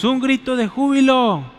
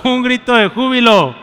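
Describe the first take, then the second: First: A half-hearted shout of joy; a feeble shout that gets no echo; weak cry of joy. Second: Much louder and higher cry of joy; loud shout of joy. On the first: Pastor demos a cry of joy, weakly at first. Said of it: "Uy, qué chafa, hermanos, más fuerte". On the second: Pastor leads the church in a louder shout of joy. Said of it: "hermanos, más fuerte". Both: Shown as a demonstration.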